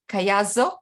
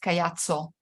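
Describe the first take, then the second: First: The double consonant is said as a z. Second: The double consonant is not said as a z. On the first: This is how English speakers say the name. The speaker calls it wrong. "you tend to to say Z, and, and uh, so Caiazzo, uh, that's how they pronounce it" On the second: This is how the name is really said. The speaker calls it right. "Instead, it's Caiazzo"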